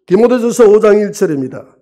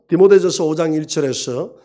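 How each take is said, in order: First: Loud announcement. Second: Said in the usual way. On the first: Acted. Pastor announcing the Bible passage, loud. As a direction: call out the verse to the congregation.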